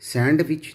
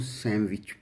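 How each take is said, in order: First: The d sound is pronounced in the word. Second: The d sound is left silent in the word. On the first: The speaker calls it wrong. "सैंडविच नहीं" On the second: The speaker calls it right. "इसको सैंडविच बोला जाता है"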